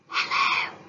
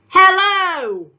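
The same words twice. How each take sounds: First: The word is whispered very quietly. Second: The word is shouted loudly. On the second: "He shouted it"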